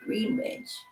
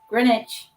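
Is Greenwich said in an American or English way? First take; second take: American; English. First: It is said the American way. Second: It is said the English way.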